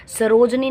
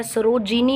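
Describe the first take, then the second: First: सरोजनी said without the i, sa-roj-ni; wrong form sarojni. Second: सरोजिनी said with a clear short i, sa-ro-ji-ni; correct form sarojini. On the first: Teacher showing students the wrong सरोजनी. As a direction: read सरोजनी as the mistaken three-syllable form. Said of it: "सरोजनी नहीं होता है". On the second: Teacher giving students the correct सरोजिनी. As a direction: read सरोजिनी in full, four syllables. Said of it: "सरोजिनी होता है". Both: Shown as a demonstration.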